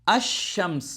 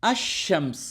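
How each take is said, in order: The two takes are said the same way.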